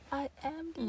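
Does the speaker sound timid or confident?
timid. It is said timidly, without conviction.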